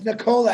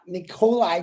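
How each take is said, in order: First: The first name ends with an 'ah' sound. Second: The first name ends with an 'eye' sound. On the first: The speaker calls it right. "it's Nikola actually, if you pronounce it correctly" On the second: The speaker calls it wrong. "however Marty wants to say it"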